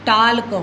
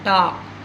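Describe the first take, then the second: First: The l sound is pronounced. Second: The l sound is silent. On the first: The speaker calls it wrong. "टाल्क होना था" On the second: The speaker calls it right. "लेकिन यहाँ पर उच्चारण क्या हो रहा है"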